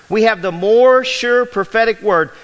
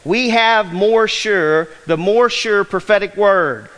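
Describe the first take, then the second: First: More and word leaned on, a bit louder; stress on word. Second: Slow, stressing more sure; Greek word order. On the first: Pastor stressing the key phrase to the congregation, louder. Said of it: "So the emphasis is on the word". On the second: Pastor reading the Greek order to his church, slow and stressed. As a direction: lean on have and more sure. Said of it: "in the Greek, it reads this way". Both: Shown as a demonstration.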